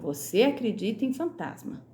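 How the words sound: It is said with statement intonation. The speaker is asserting something.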